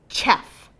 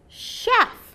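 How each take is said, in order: First: The word begins with a ch sound. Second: The word begins with a sh sound. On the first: The speaker calls it wrong. "this word does not say chef" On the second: The speaker calls it right. "It says chef. ... it makes a sh sound"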